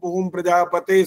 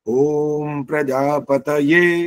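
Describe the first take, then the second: First: The word ends in a single 'te' sound. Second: The word ends with a clear 'ya' sound. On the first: The speaker calls it wrong. "कोई तो इसका शुद्ध इतना गलत है, वो कहते हैं" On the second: The speaker calls it right. "य का मतलब य आना चाहिए, वहां ए नहीं आना चाहिए"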